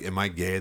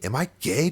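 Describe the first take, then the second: First: Said in the usual way. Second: High, loud frantic cry; freaked-out outburst; panicked question. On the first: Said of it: "once I said". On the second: Retold or imitated. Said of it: "I was losing it so much".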